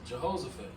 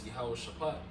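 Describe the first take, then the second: First: The name begins with a 'Je' sound. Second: The name begins with a 'Yah' sound. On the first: The speaker calls it wrong. "which that's the incorrect way of saying it" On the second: The speaker calls it right. "is Yahweh Shaphat"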